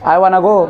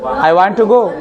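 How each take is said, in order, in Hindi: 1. 'Want to' एक शब्द में मिल जाता है, 'wanna'। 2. दोनों शब्द 'want to' अलग-अलग बोले जाते हैं।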